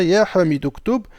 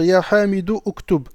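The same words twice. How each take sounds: First: "ya Hamid uktub" linked, the hamza of uktub dropped; the right way, hamzat al-wasl silent; correct liaison. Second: "ya Hamid uktub" with a vowel before uktub, no liaison; the wrong way, hamza of uktub pronounced; wrong, hamza kept. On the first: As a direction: run "ya Hamid uktub" together as "ya Hamid-uktub". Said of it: "on dira". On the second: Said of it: "on va pas dire". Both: Shown as a demonstration.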